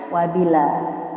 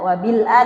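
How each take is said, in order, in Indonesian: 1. Huruf l langsung menyambung ke a. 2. Hamzah memisahkan l dan a.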